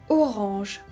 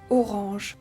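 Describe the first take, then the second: The two takes are said the same way.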